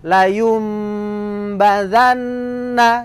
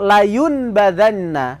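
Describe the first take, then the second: First: The sound before the b is a nasal m. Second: The sound before the b is a plain n. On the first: The speaker calls it right. "dibaca layum bazanna dinamakan bacaan iklab" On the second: The speaker calls it wrong. "bukan layun"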